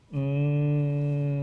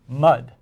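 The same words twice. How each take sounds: First: Each sound is stretched out slowly, without stopping. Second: The word is said quickly as one word.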